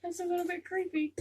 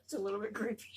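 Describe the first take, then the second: First: Higher, louder, half-laughing; giddy creeped-out squeal. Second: Said in the usual way. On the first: Real, not acted. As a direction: squeal it again, amused and spooked.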